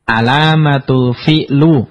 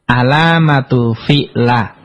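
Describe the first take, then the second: First: The last word ends in a u vowel. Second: The last word ends in an a vowel. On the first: "nggak boleh" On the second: "nggak boleh dibaca"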